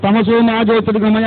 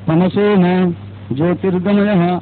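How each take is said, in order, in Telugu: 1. 'ma'ని ఉచ్చస్వరంతో పలుకుతారు. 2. 'ma'ని మందస్వరంతో పలుకుతారు. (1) "అనుకుంటాం కదా" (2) "అనాలి"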